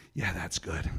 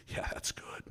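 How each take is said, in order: First: Said in the usual way. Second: Words drop to a breathy hush; shaken whisper. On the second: Retold or imitated. Agent's voice goes to a whisper after the shock. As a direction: let the voice fall away to a whisper. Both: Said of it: "And then his voice".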